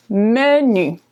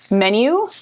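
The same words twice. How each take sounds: First: Menu with French ü; French pronunciation. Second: Menu said the English way; English pronunciation. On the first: Teacher setting French menu against English. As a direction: say menu as meh-nü, slowly. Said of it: "in French, menu". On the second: Teacher setting English Menu against French. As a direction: say Menu as English men-yoo. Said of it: "Same word, just pronounced the French way". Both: Shown as a demonstration.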